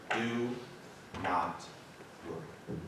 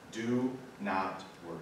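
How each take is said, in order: First: Each word set apart by long pauses, low and soft; said slowly. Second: Said in the usual way. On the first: Shown as a demonstration. Pastor to his congregation, spelling out the command slowly and softly. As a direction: drop the voice and space out every word. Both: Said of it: "I'm gonna say it slowly".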